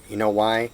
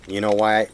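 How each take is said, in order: Both takes have the same delivery.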